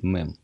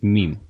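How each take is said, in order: First: The word is pronounced the Russian way. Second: The word is pronounced the English way. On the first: "у вас это звучит мем" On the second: "по-английски это звучит мем"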